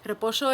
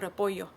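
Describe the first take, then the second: First: The ll is said like sh, Argentine-style. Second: The ll is said like y.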